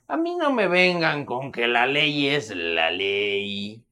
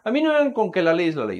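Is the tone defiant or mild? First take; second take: defiant; mild. First: It is said in a defiant, scornful tone. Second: It is said in a plain, mild tone. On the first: Do what you want, you can't touch me. "El vato dice" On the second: An ordinary person is making a simple statement. "tú que digas"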